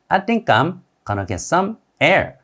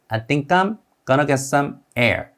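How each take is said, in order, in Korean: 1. 단어들은 붙어서 발음되고, going to는 gonna로 발음돼요. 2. 단어들은 붙어서 발음되고, going to는 gonna로 발음돼요.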